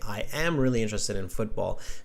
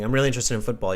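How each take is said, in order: First: I am is said as two full words. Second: I am is contracted to I'm. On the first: "take out those contractions" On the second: "instead of saying"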